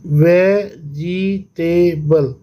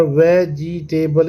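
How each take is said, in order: First: Very slow "vegetable" in four beats; syllable by syllable. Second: "vegetable" slightly slow, syllables marked but joined. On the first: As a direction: pause between वे, जि, टे and बल. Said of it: "syllable में divide करेंगे". ("Vegetable" चार हिस्सों में, धीरे-धीरे) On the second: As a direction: lightly separate the beats of vegetable. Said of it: "इस तरह से". ("वेजिटेबल" थोड़ा धीरे, हिस्से जताकर) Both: Shown as a demonstration.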